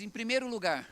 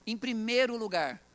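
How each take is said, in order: First: Said in the usual way. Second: Slow, weighty "primeiro"; emphatic stress on "primeiro". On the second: Real, not acted. Preacher answers his own question to the congregation, emphatic and slow. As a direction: draw out "primeiro" firmly, then fall on "lugar".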